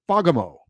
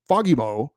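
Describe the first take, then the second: First: Fagemo the American way, FAH-guh-mo, falling at the end; American pronunciation. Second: Fagemo with a light Swedish lilt, rising at the end. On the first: Host showing how an American says it, American pronunciation. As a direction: say Fagemo with plain American vowels, first syllable stressed. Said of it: "an American would typically say". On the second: Host showing how a Swedish person says it, light Swedish lilt. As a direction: say Fagemo lightly lilted, as a Swede might. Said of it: "Swedish person with that European lilt in their accent".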